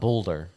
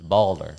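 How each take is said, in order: First: The first syllable sounds like 'bowl'. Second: The first syllable sounds like 'ball'. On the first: The speaker calls it wrong. "It is not Boulder" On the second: The speaker calls it right. "It's Balder"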